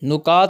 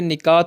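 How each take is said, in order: First: The first vowel is u. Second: The first vowel is i. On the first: The speaker calls it wrong. "नहीं होता" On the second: The speaker calls it right. "होता है"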